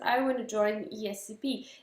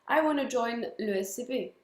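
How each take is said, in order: First: The letters are spoken with English letter names. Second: The letters are spoken with French letter names. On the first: The speaker calls it right. "Ça va être" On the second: The speaker calls it wrong. "ça va pas être"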